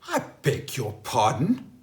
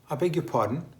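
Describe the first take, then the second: First: It is said in an indignant, offended tone. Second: It is said in a polite, questioning tone.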